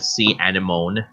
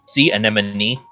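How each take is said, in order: First: The word is said with a misread pronunciation. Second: The word is said with its standard pronunciation. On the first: The speaker calls it wrong. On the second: The speaker calls it right.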